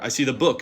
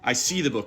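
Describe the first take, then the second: First: The stress falls on the word book. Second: The stress falls on the word see. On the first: It is a book rather than a different object. "not the pamphlet" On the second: I see it rather than sensing it another way. "I don't smell it"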